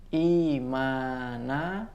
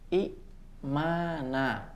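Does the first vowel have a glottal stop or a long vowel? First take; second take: long vowel; glottal stop. First: The first vowel is lengthened with no stop. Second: A glottal stop follows the short first vowel. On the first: This is how it is actually read. "Contohnya imana" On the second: This is the original underlying form. "asalnya adalah imana"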